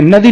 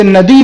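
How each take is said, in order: First: नदी with a clipped short final इ; wrong short final vowel. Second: नदी with a long, held final ई; long final vowel. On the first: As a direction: cut the end of नदी short. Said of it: "नदी नहीं बोलते". (नदी का अंतिम इ छोटा बोलना गलत) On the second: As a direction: stretch the last ई of नदी. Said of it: "जैसे नदी बोलते हैं". (नदी का अंतिम ई लंबा) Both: Shown as a demonstration.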